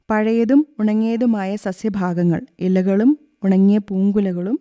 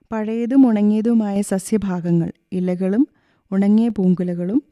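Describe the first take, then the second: No difference in how they are said.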